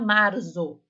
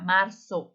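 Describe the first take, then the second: First: The middle consonant is a buzzing z sound. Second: The middle consonant is a hissing s sound. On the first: The speaker calls it wrong. "A gente não fala marzo" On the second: The speaker calls it right. "como se fosse dois S ali"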